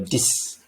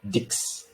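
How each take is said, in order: First: The word ends with a plain s sound. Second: The word ends with a ks sound. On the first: The speaker calls it right. "or D I S" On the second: The speaker calls it wrong. "not pronounced as six or dix"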